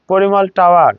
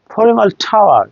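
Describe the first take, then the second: First: পরিমল টাওয়ার with plain P and T; unaspirated P and T. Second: পরিমল টাওয়ার with P like ফ, T like ঠ; aspirated P and T. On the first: Teacher giving the usual form, unaspirated পরিমল টাওয়ার. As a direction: keep পরিমল টাওয়ার free of puffs. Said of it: "তার মানে টাওয়ার উচ্চারণ". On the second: Teacher modelling the correction, aspirated পরিমল টাওয়ার. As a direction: puff the first sound of each word in পরিমল টাওয়ার. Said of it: "টাওয়ার উচ্চারণ হবে". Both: Shown as a demonstration.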